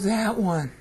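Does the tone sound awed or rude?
awed. It is said in an awed, admiring tone. The person is being elevated. "Oh, that one. That's nice. Obviously, awe is, is there"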